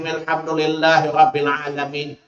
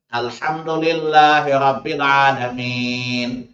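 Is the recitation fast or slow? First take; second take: fast; slow. First: It is recited quickly in one breath. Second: It is recited slowly with separated parts. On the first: It is a hasty way of reciting. The speaker calls it wrong. "secepat itu. Baca satu nafas" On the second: It is the careful way of reciting. The speaker calls it right. "Nabi bacanya itu tertil"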